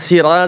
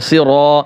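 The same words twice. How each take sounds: First: The r is said thin and light. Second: The r is said thick and heavy. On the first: The speaker calls it wrong. "সিরা যদি বলেন তাহলে তো হবে না" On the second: The speaker calls it right. "র মোটা হবে"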